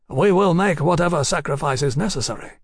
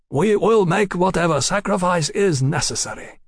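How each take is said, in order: First: Composed, slightly raised character voice; calm resolve. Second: Higher, deliberate delivery of "We will make whatever sacrifice is necessary"; firm repeated vow. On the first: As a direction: state it calmly, without drawing it out. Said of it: "said Mister Yukichi calmly". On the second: Envoy repeats his vow firmly. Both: A narrator's reading.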